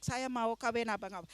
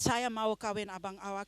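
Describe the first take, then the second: First: Saya mau kawin abang awak run together fast and soft; rattled off. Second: Saya mau kawin abang awak said carefully, as a learner rehearsing; practising Malay. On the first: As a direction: rush the phrase once learnt. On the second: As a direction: rehearse the Malay line quietly. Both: Shown as a demonstration. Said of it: "I learn it".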